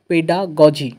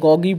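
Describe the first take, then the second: First: The last g is a soft j sound. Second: The last g is a hard g sound. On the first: The speaker calls it right. "Actual pronunciation" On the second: The speaker calls it wrong. "অনেকে গগি বলে, actual pronunciation গগি নয়"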